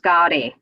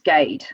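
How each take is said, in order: First: The surname is said the Indian way. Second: The surname is said the English way. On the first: This is how it is said in India. "Back in India, it's pronounced Gardi" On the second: This is how it is said in England. "my surname is pronounced Gade um, here in England"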